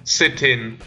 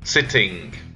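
First: The ending is said with a plain n sound. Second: The ending is said with an ng sound. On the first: The speaker calls it wrong. "ng sound, which sounds like n" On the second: The speaker calls it right. "instead of"

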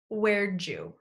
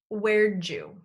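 First: It is said as 'where'dja', with 'did' reduced to 'd' and linked into 'you'. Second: The same.

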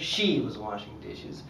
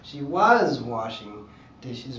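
First: The word 'she' is stressed. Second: The word 'was' is stressed. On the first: It was the girl in particular who did it. "Clearly means that the girl in particular was washing dishes" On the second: It was happening in the past. "means that it was happening in the past"

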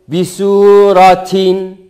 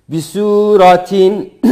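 The two takes are said the same way.

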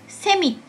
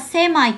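First: The word ends with an "ee" sound. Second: The word ends with an "eye" sound. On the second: "あるいはセマイと発音する人もいますが"

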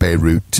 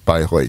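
First: It is pronounced like the city Beirut. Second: It is pronounced with German sounds. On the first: "Normally pronounced like Beirut in English" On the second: "but it's Bayreuth mm-hmm. in German"

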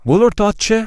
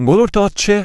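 No difference in how they are said.

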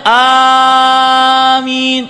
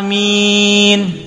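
First: The word is drawn out very long. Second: The word is said at normal length. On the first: The speaker calls it wrong. "Jangan terlalu panjang amin" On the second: The speaker calls it right. "yang benar adalah amin"

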